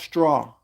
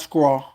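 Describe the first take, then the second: First: The word begins with a clear 'str' sound. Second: The word begins with an 'skr' sound. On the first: The speaker calls it right. "It's pronounced straw" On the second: The speaker calls it wrong. "not scraw"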